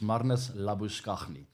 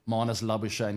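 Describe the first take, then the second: First: The name is said in its South African pronunciation. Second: The name is said in its adopted pronunciation. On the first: This is how the name is said in South Africa. "It's Marnus Labuschagne" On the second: This is the pronunciation the player uses now. "he likes to go by that name these days, but he'll never be Marnus Labuschagne in South Africa"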